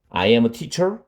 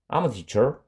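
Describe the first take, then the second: First: I and am are said as two separate words. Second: I and am merge into one syllable, I'm.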